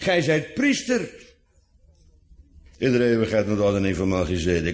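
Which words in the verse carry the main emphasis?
priester. The emphasis falls on the word priester. He is a priest rather than only a king. "gij zijt priester in plaats van koning"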